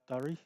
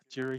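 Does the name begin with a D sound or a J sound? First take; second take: D sound; J sound. First: The name begins with a D sound. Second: The name begins with a J sound. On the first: The speaker calls it wrong. "not Durry" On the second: The speaker calls it right. "it's actually Jury Hill"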